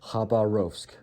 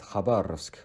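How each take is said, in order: First: It is pronounced the English way. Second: It is pronounced the Russian way. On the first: The speaker calls it wrong. "In English" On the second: The speaker calls it right. "the right pronunciation of this word in Russian is"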